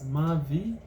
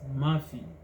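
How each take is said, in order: First: The middle consonant is a v sound. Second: The middle consonant is an f sound. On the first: Some Swahili speakers say it this way. "some Swahili pronounce the word as Mavi" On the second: Other Swahili speakers say it this way. "others as Mafi"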